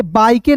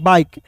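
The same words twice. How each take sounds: First: बाइके with a sounded final e; wrong reading. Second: बाइक with a silent final e; correct reading. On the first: Teacher warning against a misreading, बाइके with final e voiced. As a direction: say बाइके in two syllables, ending in "kay". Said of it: "इसे बाइके नहीं पढ़ते हैं". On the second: Teacher giving learners the right reading, बाइक ending on k. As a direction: say बाइक as one syllable ending on k. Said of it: "इसे क्या पढ़ते हैं". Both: Shown as a demonstration.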